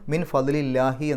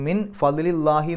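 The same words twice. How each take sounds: First: The l in 'lahi' sounds light and thin. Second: The l in 'lahi' sounds heavy and dark. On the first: The speaker calls it right. "എന്നാണ് പറയാം" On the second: The speaker calls it wrong. "എന്ന് പറയില്ല"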